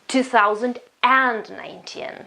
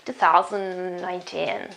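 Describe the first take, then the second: First: The word 'and' is said with strong stress. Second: The word 'and' is said weakly, without stress. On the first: The speaker calls it wrong. "it's not emphasized this way" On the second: The speaker calls it right. "it's just uh"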